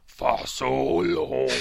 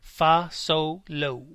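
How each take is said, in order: First: It is said in a Jabba the Hutt voice. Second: It is said in his normal voice.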